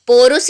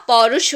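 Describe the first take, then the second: First: पौरुष as "porus", with O and a final S; wrong pronunciation. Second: पौरुष as "paurush", open AU and final SH; correct AU sound. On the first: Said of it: "पौरुष नहीं होता". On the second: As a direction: say पौरुष with a wide AU and hushed SH ending. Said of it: "बड़े औ की मात्रा आएगी". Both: Shown as a demonstration.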